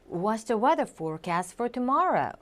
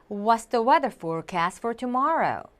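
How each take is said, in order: Both takes have the same delivery.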